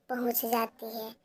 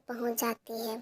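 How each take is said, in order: Both takes have the same delivery.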